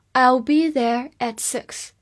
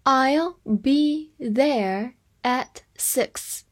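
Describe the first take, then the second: First: Said in the usual way. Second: Word by word, very slowly, with pauses; slow teacher's model reading. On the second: Shown as a demonstration. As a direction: stretch each word out separately for learners. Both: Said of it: "我们慢读一遍".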